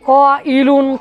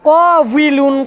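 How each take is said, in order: First: The middle consonant is a glottal stop. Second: The middle consonant is a w sound. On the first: The speaker calls it right. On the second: The speaker calls it wrong.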